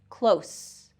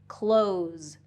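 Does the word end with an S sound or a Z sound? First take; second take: S sound; Z sound. First: The word ends with a voiceless S sound. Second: The word ends with a voiced Z sound. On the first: Something is near. "close is going to have that voiceless S sound" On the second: Something is being shut. "has that voiced Z sound"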